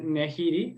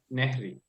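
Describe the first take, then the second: First: The middle vowel is kept in the word. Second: The middle vowel is dropped from the word. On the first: The speaker calls it wrong. "en vez de Nehiri" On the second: The speaker calls it right. "sería Nehri"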